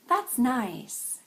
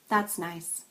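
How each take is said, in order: First: High on that's, falling on stressed nice. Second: Flat pitch with little stress on nice. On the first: "back to the sincere version" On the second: "And the understated version"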